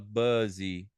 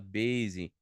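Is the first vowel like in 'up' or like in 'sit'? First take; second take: up; sit. First: The first vowel sounds like the vowel in 'up'. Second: The first vowel sounds like the vowel in 'sit'. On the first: The speaker calls it wrong. "a gente não fala buzzy" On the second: The speaker calls it right. "a gente fala base"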